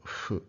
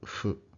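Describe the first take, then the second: No difference in how they are said.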